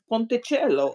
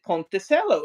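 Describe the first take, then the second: First: The name is said with Italian pronunciation. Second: The name is said with anglicized pronunciation. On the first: This is how the name is said in Italian. The speaker calls it right. "his name in Italian means little bridge" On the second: This is how the name's owner says it. The speaker calls it wrong. "he pronounces it"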